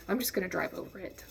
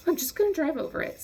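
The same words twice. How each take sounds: First: Quick, soft inner decision; hurried, subdued self-talk; private resolve. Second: Fast, high-pitched burst of decision; squeaky, hurried self-convincing; frantic resolve. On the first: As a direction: say it fast and softly to yourself. Deciding in head, first take. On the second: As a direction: blurt it quickly, pitched way up. Deciding in head, heightened repeat. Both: Retold or imitated.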